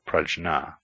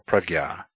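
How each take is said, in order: First: The middle cluster sounds like jn. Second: The middle cluster sounds like gy. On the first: The speaker calls it wrong. "never as prajna" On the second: The speaker calls it right. "or prajna"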